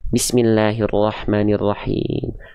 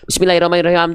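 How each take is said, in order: First: It is recited slowly and carefully. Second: It is recited very quickly and rushed. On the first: The reciter is praying with focus. The speaker calls it right. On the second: The reciter is hurrying through the prayer. The speaker calls it wrong.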